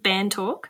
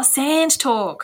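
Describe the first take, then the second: First: "Band Talk" with a plain B, said as a question; asking "Band Talk" with a B sound, rising; misheard title. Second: "Sand Talk" slowly, with a clear S; corrected title. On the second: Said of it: "Oh, Sand Talk". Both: Real, not acted.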